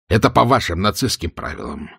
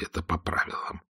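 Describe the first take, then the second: First: Said in the usual way. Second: Это по правилам whispered, no voice at all. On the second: Acted. Stirlitz warns of bugs in a whisper. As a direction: breathe Это по правилам as a secret. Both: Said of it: "тихо ответил Штирлиц".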